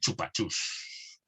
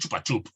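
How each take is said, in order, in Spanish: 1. La palabra termina en un sonido s simple. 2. La palabra termina en un sonido p. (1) "Como está ahí" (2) "acabado en P"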